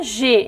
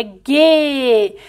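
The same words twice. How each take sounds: First: Short "G" syllable with a zh sound; G com som de J. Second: "G" said hard, as "guê", vowel held long; G com som duro. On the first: ("G" brando, pronunciado "jê") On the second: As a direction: stretch "G" as a hard "gheh" syllable. ("G" duro, pronunciado "guê", bem alongado) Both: Shown as a demonstration. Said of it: "E não é G".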